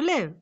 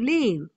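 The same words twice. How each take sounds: First: The vowel in the word is cut short. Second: The vowel in the word is drawn out long. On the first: The speaker calls it right. "You should cut it and make it a short word" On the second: The speaker calls it wrong. "It is not where do you live"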